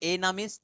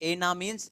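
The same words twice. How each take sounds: The two takes are said the same way.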